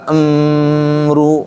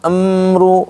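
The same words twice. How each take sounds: First: The m is held for too long. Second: The m is held for a moderate length. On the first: The speaker calls it wrong. "Enggak amru kelamaan" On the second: The speaker calls it right. "gitu doang"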